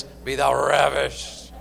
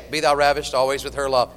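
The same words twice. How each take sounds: First: RAVISHED slow and drawn out, low; hammed-up, lingering RAVISHED; relished RAVISHED. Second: Said in the usual way. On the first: Shown as a demonstration. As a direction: savor RAVISHED with a long R and lingering SH. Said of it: "The point of it is". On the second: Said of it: "If you just say".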